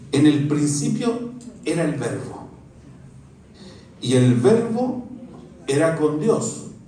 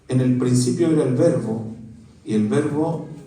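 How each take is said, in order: First: It is read slowly, pausing at the commas. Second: It is read straight on, with little pausing.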